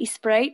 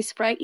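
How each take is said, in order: First: SPRITE said "ee-sprite", rising; added E. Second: Said in the usual way. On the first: Shown as a demonstration. Partner showing how they say it, SPRITE as "ee-sprite". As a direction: put an E sound before "Sprite". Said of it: "they always put an E in front". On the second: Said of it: "how you guys say Sprite?".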